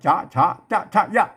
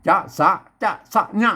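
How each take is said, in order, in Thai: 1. พยางค์ที่สองคือ cha ส่วนตัวสุดท้ายคือ ya 2. พยางค์ที่สองคือ sa ส่วนตัวสุดท้ายคือ nya (1) "ออกเสียงไปตามแบบภาษาไทย" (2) "บางที่เพิ่นก็อ่าน"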